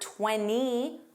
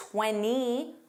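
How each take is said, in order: First: The T sound after N is dropped. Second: The T sound after N is dropped.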